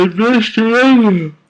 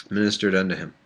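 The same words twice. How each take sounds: First: Loud, very high put-on voice; hammed-up cry at full tilt; mock-dramatic reading. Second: Said in the usual way. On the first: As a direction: proclaim it absurdly high and loud. Overblown take, then plain redo.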